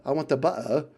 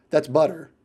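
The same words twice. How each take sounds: First: "butter" said as "buh-uh" with no T and no R, Essex-style; mock Essex "butter" with a glottal stop; dropped T in butter. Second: "butter" with a flapped T and a strong American R; clear American butter. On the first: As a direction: swallow the T in "butter" like an Essex speaker. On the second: Shown as a demonstration. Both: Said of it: "There's a T in there".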